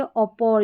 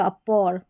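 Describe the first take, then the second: First: First "अपोर" opening on a rounded aw, aw-por; rounded O start. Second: Second "अपोर" opening on a short uh, uh-por; neutral A start. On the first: ("अपोर" को ऑ से शुरू करें, ऑपोर) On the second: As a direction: say "अपोर" with an unrounded first vowel. ("अपोर" को छोटे अ से शुरू करें) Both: Shown as a demonstration. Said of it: "दोनों तरीके से पढ़ सकते हैं".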